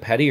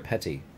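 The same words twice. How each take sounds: First: The middle consonant sounds like a D. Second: The middle consonant sounds like a T. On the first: "With a D" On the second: "or a T"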